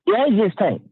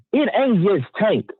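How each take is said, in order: First: Said in the usual way. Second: "It ain't just Tank" said slowly, each word leaned on; emphatic stress. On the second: Shown as a demonstration. Boxing fan insisting to viewers, slow emphatic stress. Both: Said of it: "we gotta put an emphasis on that".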